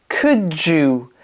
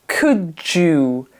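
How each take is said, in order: No difference in how they are said.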